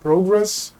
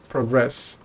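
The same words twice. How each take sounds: First: Progress as PROgress, rising on the first syllable; stress on first syllable. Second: Progress as proGRESS, short first vowel; stress on second syllable. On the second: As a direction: say progress lower, weight on GRESS. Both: Shown as a demonstration. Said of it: "depending on how you say it".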